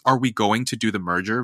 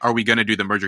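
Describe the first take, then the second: First: Going to is said in full, clearly. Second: Going to is reduced to gonna. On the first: "Very clear, very, you know, not gonna, he's going to say going to" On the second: "Instead of saying"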